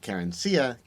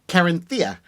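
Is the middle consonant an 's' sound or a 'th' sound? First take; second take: s; th. First: The middle consonant is a plain 's' sound. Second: The middle consonant is a lisped 'th' sound. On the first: "You could say you know Carencia" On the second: "That would be a Castilian accent"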